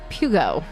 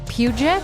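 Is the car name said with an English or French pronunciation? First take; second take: English; French. First: It is said with a plain English pronunciation. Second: It is said with a strongly French pronunciation.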